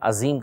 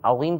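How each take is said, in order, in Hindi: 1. z की आवाज़ सादा z है। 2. z की आवाज़ भारी, गैर-सादा z है।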